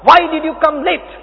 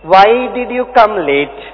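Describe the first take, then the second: First: It is shouted in an angry tone. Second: It is said in a warm, smiling tone. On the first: The speaker is scolding the late student. The speaker calls it wrong. "चिल्लाकर बोलता था" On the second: The speaker is gently caring toward the late student. The speaker calls it right. "अभी बड़े प्यार से बोलता हूं"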